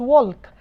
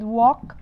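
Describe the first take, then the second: First: The L is sounded in the word. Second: The L is silent in the word. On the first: The speaker calls it wrong. "ما بقولش walk" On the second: The speaker calls it right. "L side ... بتبقى silent"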